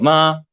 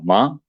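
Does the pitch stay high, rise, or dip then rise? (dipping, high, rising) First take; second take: high; rising. First: The pitch stays high and level. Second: The pitch rises like a question. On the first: It means mother. "hacia arriba" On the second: It means flax. "Es como preguntando"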